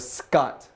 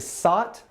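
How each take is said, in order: First: A k sound follows the s. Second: There is no k sound after the s. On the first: The speaker calls it right. "or Scott?" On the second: The speaker calls it wrong. "Is his name Sot"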